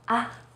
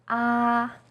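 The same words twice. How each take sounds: First: The vowel is light and very short. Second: The pitch stays high and level. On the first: "you say it in a more light and short way" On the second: "First tone, 一声, is high and steady"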